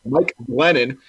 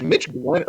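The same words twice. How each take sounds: First: "Mike Glennon" fixed, first name said clearly as Mike; corrected name. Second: Says "Mitch Glennon" by mistake, first name as Mitch; slip of the tongue. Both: Real, not acted. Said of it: "I can't talk".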